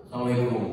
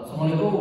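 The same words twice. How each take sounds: First: Flat, dropping salam. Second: Curt salam. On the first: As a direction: let it fall low and dull. (salam datar yang menurun) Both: Shown as a demonstration. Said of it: "salamnya seperti itu".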